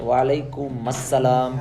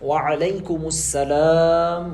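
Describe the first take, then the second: First: It is said quickly and casually, without Arabic sounds. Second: It is said carefully, with Arabic pronunciation. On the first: The reply is careless and unprofessional. The speaker calls it wrong. "ये जो है ना अनप्रोफेशनल तरीक़ा है।" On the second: The reply sounds fresh and proper. The speaker calls it right. "अरबी एक्सेंट में सलाम करना चाहिए।"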